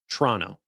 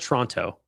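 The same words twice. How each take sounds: First: The first O and final T are dropped. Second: The first O and final T are pronounced. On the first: The speaker calls it right. "the first O definitely gets passed up, but also the T at the end gets passed up" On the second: The speaker calls it wrong. "It's not Toronto"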